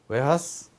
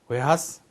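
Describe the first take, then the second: First: It is said as we-ha-seu, Japanese-like. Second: It is said as we-ha-seu, Japanese-like.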